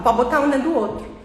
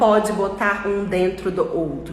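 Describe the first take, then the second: First: The words run together into one stream. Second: Each word is said separately and fully. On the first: "Eles falam" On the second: "eles não falam"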